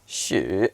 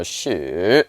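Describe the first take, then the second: First: "Shu" dipping down then coming up, croaky; dipping Mandarin tone; dipping third tone. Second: "shu" just rising steadily, the wrong way; rising not dipping; plain rising shu. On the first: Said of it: "rising tone". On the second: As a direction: rise "shu" straight up, no dip. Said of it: "it doesn't go shu". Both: Shown as a demonstration.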